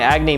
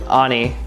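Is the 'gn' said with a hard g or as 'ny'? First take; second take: hard g; ny. First: The 'gn' is said with a hard g. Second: The 'gn' is said as a 'ny' sound. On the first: This is the Sanskrit word for fire. "means fire in Sanskrit" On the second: This is the Italian reading of the letters. "You pronounce it Ani in Italian"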